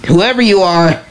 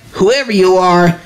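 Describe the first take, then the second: No difference in how they are said.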